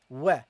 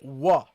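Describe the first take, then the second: First: The syllable is said light, with a bright vowel. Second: The syllable is said heavy, with a dark vowel. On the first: The speaker calls it right. "make it light" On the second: The speaker calls it wrong. "Don't make it heavy. Okay, so don't say wa"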